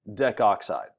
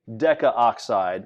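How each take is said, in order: First: The 'a' vowel blends away before 'oxide'. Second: The 'a' vowel is sounded before 'oxide'. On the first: The speaker calls it right. "we just say decoxide" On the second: The speaker calls it wrong. "We don't say decaoxide"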